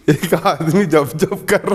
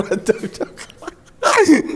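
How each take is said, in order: First: Said in the usual way. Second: Very slow, higher, strained puffing of जब जब; acting out a man heaving through exercise; mock straining exerciser. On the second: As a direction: imitate the man straining through each rep. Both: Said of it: "मेरे को वो दृश्य याद आ गया".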